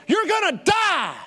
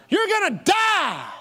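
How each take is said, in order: The two takes are said the same way.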